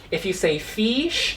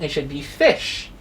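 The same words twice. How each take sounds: First: Fish said with a long ee vowel, like feesh; wrong vowel. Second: Fish said with a short, clipped i; short i vowel. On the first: Teacher showing pupils the wrong way to say fish. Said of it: "that is wrong". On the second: Teacher giving pupils the correct fish. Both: Shown as a demonstration.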